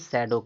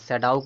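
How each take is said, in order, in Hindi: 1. यह शब्द 'oh' की आवाज़ पर खत्म होता है। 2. यह शब्द 'ow' की आवाज़ पर खत्म होता है। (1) "ना कि शैडो कहते हैं" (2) "सैडाउ कहते हैं"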